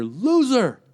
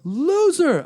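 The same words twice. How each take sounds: First: Mock heckler shouting from the back; higher, louder retold heckle; heckler yell. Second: Much higher, louder mock heckler shout; retold heckle, pushed harder; heckler yell. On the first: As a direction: call it out like a rude heckler. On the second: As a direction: bellow the insult across the room. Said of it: "a guy in a bow tie yelling".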